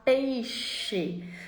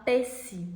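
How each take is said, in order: First: The middle consonant is a clear 'sh' sound. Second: The middle consonant is not a 'sh' sound. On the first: The child should produce the sound by this age. The speaker calls it right. "ao invés de falar peixe" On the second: A young child cannot yet produce the sound. The speaker calls it wrong. "E a criança fala peixe"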